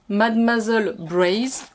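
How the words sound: The name is said with an English accent. The speaker calls it wrong. "je prononce ça n'importe comment moi, à l'anglaise"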